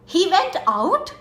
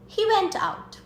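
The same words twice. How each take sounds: First: It is said in an angry tone. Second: It is said in a calm, neutral tone. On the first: The speaker is upset about it. "That is anger" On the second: It is a plain answer to a question. "That's a normal sentence"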